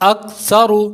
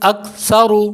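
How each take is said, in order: No difference in how they are said.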